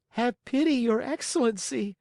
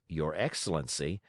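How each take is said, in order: First: Much higher, begging puppet voice; pleading Pinocchio. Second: Said in the usual way. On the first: A narrator's reading. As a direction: beg like a frightened little boy.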